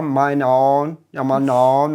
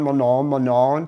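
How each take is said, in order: First: "mein Ohren" said fully, "mein" and "Ohren" both clear; careful German. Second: "mon Ohren" slurred, nasal "mon an"; local nasal blur. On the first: Teacher contrasting textbook German with local speech, careful full words. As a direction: say "mein Ohren" with every vowel sounded. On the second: Teacher imitating a native speaker in Germany, nasal slurred. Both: Shown as a demonstration. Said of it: "te dicen".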